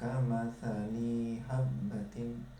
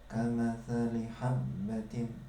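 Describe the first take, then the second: First: The vowel in 'li' is drawn out long. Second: The vowel in 'li' is kept short. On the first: The speaker calls it wrong. "tidak boleh dibaca" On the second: The speaker calls it right. "Yang pendek tidak boleh dipanjangkan. Contoh misalkan"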